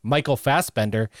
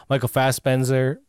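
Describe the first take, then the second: First: "Fassbender" with a clear d; corrected pronunciation. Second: "Fassbender" slipped as "Fassbenzer"; slipped pronunciation. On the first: Host fixing a slip, "Fassbender" said with a d. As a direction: say "Fassbender" as FASS-ben-der, with a d. Same name said again, corrected. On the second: Host recommending a film, stumbles "Fassbender" into "Fassbenzer". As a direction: say "Fassbender" with a z sound in place of the d. Name slipped, then corrected. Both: Real, not acted.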